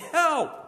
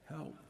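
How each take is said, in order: First: It is said in a desperate, urgent way. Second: It is said calmly and plainly.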